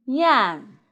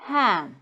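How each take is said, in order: First: "Yan" said as yam, clear y onset; contrast-word demo. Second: "Ham" with a breathed h onset; contrast-word demo. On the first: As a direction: model "Yan" with a higher falling tune, y first. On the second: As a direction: model "Ham", h in place of y. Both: Shown as a demonstration. Teacher contrasting similar words, careful articulation. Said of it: "But they are different".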